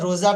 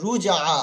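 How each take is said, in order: First: The first vowel sounds like an 'o'. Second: The first vowel sounds like an 'u'. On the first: The speaker calls it wrong. "আপনার রোজা টাইপের হয়ে যাচ্ছে" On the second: The speaker calls it right. "রজিম পেশ রুজ"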